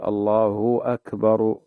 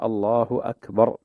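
First: "الله" ending in a long u, allaahuu, slow; "الله أكبر" stretching the u after "الله" into a w; overlong u. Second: "الله" with a brief clean u, not stretched; "الله أكبر" giving the u only its short length. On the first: Sheikh imitating the overdrawn u on the divine name. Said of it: "حتى تكون واوا". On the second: Sheikh showing the correct short vowel on the name. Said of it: "تعطي الضمة حقها من دون إشباع". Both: Shown as a demonstration.

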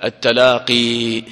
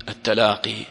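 First: Slow التلاقي with the final ي sounded; slow demo of التلاقي; slow, emphatic. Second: Said in the usual way. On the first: Shown as a demonstration. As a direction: stretch التلاقي to show the ياء. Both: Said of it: "أصلها إيش؟".

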